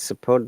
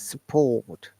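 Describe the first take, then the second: First: The R sound is pronounced. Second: The R sound is silent. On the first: This is the American way. "If you pronounce support, that becomes American" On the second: This is the British way. "So it is support"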